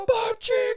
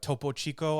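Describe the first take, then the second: First: It is screamed like the Mortal Kombat announcer. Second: It is said calmly at normal volume.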